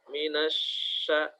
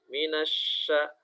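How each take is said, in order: No difference in how they are said.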